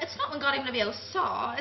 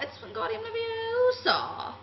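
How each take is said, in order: First: Wingardium Leviosa said quickly as the mistaken version; the error the schoolgirl is about to fix; wrong pronunciation set-up. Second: Leviosa stretched slowly with a high lofty lilt; prim know-it-all correction; correct pronunciation drawn out. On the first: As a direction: quote the wrong way before the correction. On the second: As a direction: correct them slowly like a superior schoolgirl. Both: Retold or imitated. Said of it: "somebody said I sound like Emma Watson".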